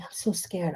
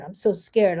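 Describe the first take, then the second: First: Barely voiced, scared whisper; whispered fear. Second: Said in the usual way. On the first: Tapping on the ladder, admitting fear in a whisper. Tapping phrase said while afraid.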